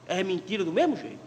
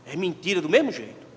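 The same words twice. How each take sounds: The two takes are said the same way.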